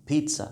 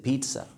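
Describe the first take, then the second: No difference in how they are said.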